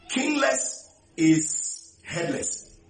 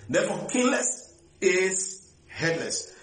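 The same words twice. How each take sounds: First: "kingless is headless" spaced out slowly, stress on "kingless" and falling at the end; slow proclamation. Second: Said in the usual way. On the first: Real, not acted. Preacher stating his maxim to the church, slow and weighty. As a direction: lay "kingless is headless" down word by word. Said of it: "preacher states a maxim". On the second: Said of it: "preacher restates the maxim".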